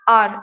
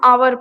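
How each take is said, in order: First: It starts with a vowel, one syllable. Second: It starts with a vowel, two syllables. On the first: The speaker calls it right. "आर बोलते हैं" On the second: The speaker calls it wrong. "वैसे आवर भी नहीं पढ़ते"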